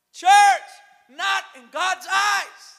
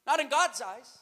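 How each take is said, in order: First: Loud, high, slow pulpit shout; rousing shout. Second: Said in the usual way. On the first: Real, not acted. Preacher driving the point home to the church, shouting. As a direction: cry it out to the congregation word by word.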